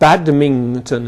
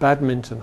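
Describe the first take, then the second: First: The middle syllable ends in an 'ing' sound. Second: The middle syllable ends in an 'in' sound.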